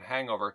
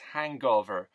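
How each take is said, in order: First: The middle has no hard g sound. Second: The middle has a hard g sound. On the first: "two words run together as one" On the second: "I heard uh, a Colombian pronounce as hangover"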